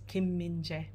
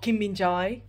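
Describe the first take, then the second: First: The last syllable ends in a plain 'e'. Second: The last syllable does not end in 'e'. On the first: The speaker calls it right. "So Korean AE spelling is E" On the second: The speaker calls it wrong. "it's not Kim Min Jae"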